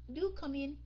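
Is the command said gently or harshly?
gently. It is said in a soft, gentle tone. It is a polite, friendly invitation. The speaker calls it right. "ra lệnh một cái cách mà lịch sự, okay, nhẹ nhàng đó"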